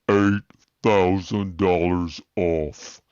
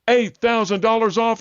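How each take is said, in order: First: It is said very slowly. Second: It is said at normal speed.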